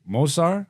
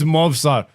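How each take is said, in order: First: The v sound is left out. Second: The v sound is pronounced. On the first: The speaker calls it wrong. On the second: The speaker calls it right.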